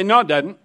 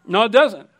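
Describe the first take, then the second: First: Said in the usual way. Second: "doesn't" pressed down hard and falling; firm stress on doesn't. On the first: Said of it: "You say". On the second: Shown as a demonstration. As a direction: say "doesn't" flatly, like a rebuttal.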